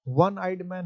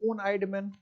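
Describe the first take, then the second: First: 'One' is said beginning with a 'w' sound. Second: 'One' is said with an 'o' vowel sound. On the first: The speaker calls it right. "ये क्या है, वन eyed man है" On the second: The speaker calls it wrong. "इसको वो तो नहीं पढ़ सकते"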